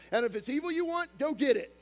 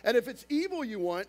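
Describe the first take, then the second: First: "And if it's evil you want" pitched high with "you" stressed, then "go get it" louder; emphatic reread. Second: Said in the usual way. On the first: Shown as a demonstration. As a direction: punch "you" hard, then push "go get it" up loud. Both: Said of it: "I just want to make sure you understand this".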